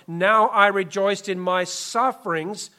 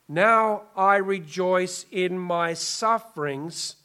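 First: It is read at a quick pace. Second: It is read at a slow pace.

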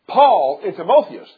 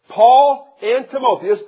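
First: The phrase is spoken quickly. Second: The phrase is spoken slowly. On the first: The speaker calls it wrong. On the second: The speaker calls it right.

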